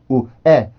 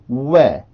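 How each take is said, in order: First: The two vowel sounds are separated by a break. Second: The two vowel sounds glide together without break. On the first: The speaker calls it wrong. "소리가 끊기고서 에로 넘어와서는 안 됩니다 ... 이런 소리가 아니라" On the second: The speaker calls it right. "이어와야 돼 소리를. 바로 넘겨야 됩니다"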